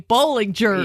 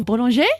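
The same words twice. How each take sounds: First: The name is pronounced the American way. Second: The name is pronounced the French way. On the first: "we say Bollinger" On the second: "she used to give the classes in French"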